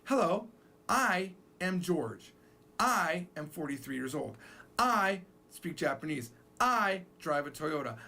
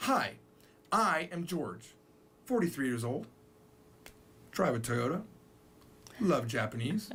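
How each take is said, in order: First: Slow, stressing each "I"; repetitive English self-introduction. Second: Japanese style introduction. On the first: Teacher shows how English speakers repeat "I". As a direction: plod through each "I" sentence. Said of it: "We say". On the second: Teacher shows Japanese style dropping "I". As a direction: list the facts without the subject. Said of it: "they talk like this". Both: Shown as a demonstration.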